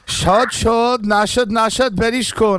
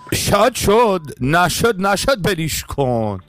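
First: It is said in the speaker's plain accent. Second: It is said with a put-on Persian accent. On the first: "אני סתם עכשיו אני מנסה, אל תסגירו את זה לפי המבטא שלי" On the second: "ועכשיו אתה יכול לעשות את זה עם המבטא"

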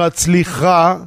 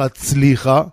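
First: The stress is on the last syllable. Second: The stress is on the second-to-last syllable. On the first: It asks God to grant success. The speaker calls it right. "זה מלרע ולא מלעיל" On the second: It commands God himself to succeed. The speaker calls it wrong. "כאילו אתה אומר, ריבונו של עולם תצליח"

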